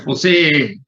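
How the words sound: It is said in a bleating, goat-like voice.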